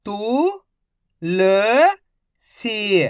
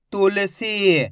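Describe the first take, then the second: First: तु, ल, सी as three held syllables. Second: Said in the usual way. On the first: Shown as a demonstration. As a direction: sound out तु... ल... सी with pauses. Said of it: "direct मात्रा का उच्चारण करके पढ़ेंगे". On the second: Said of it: "तो मिलके बन जाएगा".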